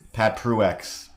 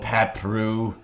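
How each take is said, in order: First: The name ends with an x sound. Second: The name ends without an x sound. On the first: "whenever I see that X" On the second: "I'm gonna try my best to start saying it that way"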